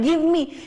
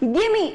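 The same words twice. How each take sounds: First: Both words are said fully and separately. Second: The two words are run together, shortened. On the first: "एकदम clear हो रहा है" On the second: "shorten form में बोलना है तो हम इसको बोलते हैं"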